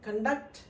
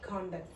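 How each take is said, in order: First: The stress is on the second syllable. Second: The stress is on the first syllable. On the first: The word is an action, a verb. "Second syllable మీద stress ఉంది" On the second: The word describes a kind of certificate, not an action. "ఇక్కడ first syllable మీద stress ఉంది"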